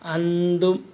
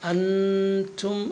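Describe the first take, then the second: First: The t blends with the n into nth. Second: The t is pronounced as a clear separate t. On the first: The speaker calls it wrong. "അന്തു ആയി പോകലുണ്ട്, അതാവരുത്" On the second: The speaker calls it right. "താ തന്നെ പറയാൻ വേണ്ടി ശ്രമിക്കുക"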